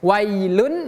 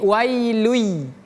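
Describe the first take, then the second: First: The final n sound is clearly pronounced. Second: The n sound merges into a following y. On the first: The speaker calls it wrong. "bukan wailun tapi langsung melebur" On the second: The speaker calls it right. "langsung melebur, pindah ke huruf ya"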